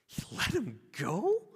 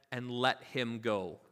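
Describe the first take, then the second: First: Slow, high-pitched incredulous question; acted shock. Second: Said in the usual way. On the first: Crowd hears the servant was released, acted disbelief. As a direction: act out a stunned crowd, rising at the end. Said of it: "imagine the gasp from the crowd".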